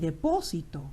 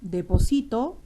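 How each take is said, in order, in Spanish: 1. La tonicidad está en la antepenúltima sílaba. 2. La tonicidad está en la penúltima sílaba. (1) "depósito es un sustantivo" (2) "deposito ya está en presente"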